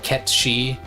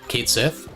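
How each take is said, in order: First: The name sounds like 'ket-shee', with a 'sh' sound. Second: The name sounds like 'kate sith', with a 'th' sound. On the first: This follows the original Gaelic pronunciation. "supposed to be some kind of Gaelic thing that's pronounced like Ket-shi" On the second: This follows the English spelling as it reads. "as it as it is read phonetically"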